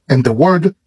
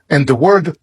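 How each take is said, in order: Both takes have the same delivery.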